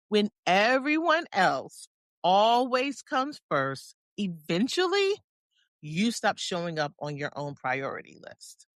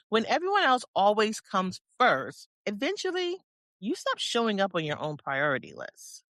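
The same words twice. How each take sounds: First: It is said more slowly. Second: It is said at a normal pace.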